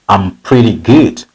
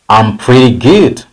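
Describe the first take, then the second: Both takes have the same delivery.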